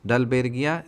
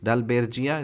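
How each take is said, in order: First: The consonant after 'Dalber' is a hard G. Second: The consonant after 'Dalber' is a J sound. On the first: "बर्गिया भी बोल सकते हो" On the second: "डालबेर्जिया भी बोल सकते हो"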